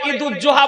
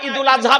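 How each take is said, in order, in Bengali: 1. শব্দ দুটি একসাথে মিশে যায়, একটি দ্বিগুণ 'z' ধ্বনি সহ। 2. একটি 'l' ধ্বনি আসে একটি আলাদা 'azha'-র আগে। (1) "ঈদুজ্জোহা বলবেন না" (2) "ঈদুল আযহা বলবেন"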